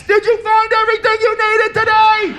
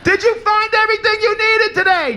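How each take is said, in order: First: High shouted cashier question; muffled yell through glass. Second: Confused repeat. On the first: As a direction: call it out through plexiglass. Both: Retold or imitated. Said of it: "yelling through the glass".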